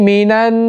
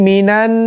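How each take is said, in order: Both takes have the same delivery.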